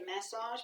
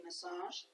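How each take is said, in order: First: Massage said the speaker's own way; own pronunciation. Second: "massage" said the listeners' way; the other pronunciation. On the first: Teacher contrasting how she says it, own pronunciation. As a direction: say "massage" in your own accent's way. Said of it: "but you say massage". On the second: Teacher quoting the class's version, other pronunciation. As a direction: say "massage" as the other side says it. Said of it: "I would say massage". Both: Shown as a demonstration.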